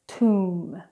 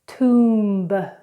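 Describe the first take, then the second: First: The final b sound is silent. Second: The final b sound is pronounced. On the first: The speaker calls it right. "then correctly" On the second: The speaker calls it wrong. "incorrectly first"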